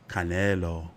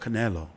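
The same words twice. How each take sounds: First: The name is said with a Spanish accent. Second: The name is said with an English accent.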